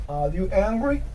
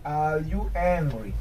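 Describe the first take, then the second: First: "angry" rising at the end like a question; question intonation. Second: "Are you angry" drawn out, falling at the end; slow, falling question. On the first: Teacher correcting for the question mark, "angry" rising. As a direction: lift the end of "Are you angry" into a question. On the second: Teacher modelling a question for learners, "Are you angry" slow and falling. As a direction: stretch "Are you angry" slowly and let it drop. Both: Shown as a demonstration. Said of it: "here there is a question mark".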